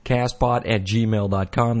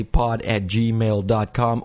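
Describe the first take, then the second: First: Said in the usual way. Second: Slow, deliberate pod at gmail dot com; slow, careful spelling. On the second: Shown as a demonstration. Host repeating his email address slowly for listeners. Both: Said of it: "That's cast with a K".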